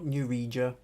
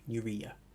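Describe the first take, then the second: First: The J is said as a J sound. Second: The J is said as a Y sound. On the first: The speaker calls it wrong. "it's not Neuregia" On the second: The speaker calls it right. "The J is pronounced as a Y"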